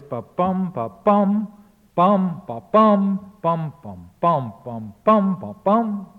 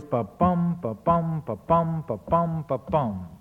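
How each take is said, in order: First: Loud, jolting "bum" stresses piling up irregularly; broken metrical beat. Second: Even "ba-bum" pulse, stress on every "bum"; regular iambic beat. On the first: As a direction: hammer out "ba-bum", then stray "bum" beats with no rhythm. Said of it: "absolute mess". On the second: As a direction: tap out five steady "ba-bum" feet, settling down at the end. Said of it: "The blank verse line goes". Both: Shown as a demonstration.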